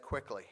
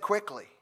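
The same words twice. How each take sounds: First: Said in the usual way. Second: "Quickly" lifted high and pressed; "Quickly" punched up in pitch, falling at the end; stress on Quickly. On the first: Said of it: "Jesus said". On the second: Shown as a demonstration. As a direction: lean hard on "Quickly" like a promise. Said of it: "He said".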